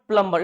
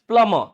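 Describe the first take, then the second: First: The b sound is pronounced in the middle. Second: The b sound is silent in the middle. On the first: The speaker calls it wrong. "It is not प्लम्बर" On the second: The speaker calls it right. "यहाँ पे बी भी silent है"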